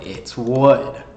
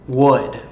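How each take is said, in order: First: "wood" stressed, /wʊd/ with a clear w and a short oo; "wood" said slowly, insisting it is not "could"; correcting to wood. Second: "wood" said as /wʊd/, a clear w with a short oo and a final d; "wood" with a round w and a short oo, not "could"; pronouncing wood. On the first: Insisting to viewers, "wood" with a clear w. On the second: Correcting how a viewer hears it, "wood" said carefully. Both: Shown as a demonstration. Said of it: "it's not could. It's wood".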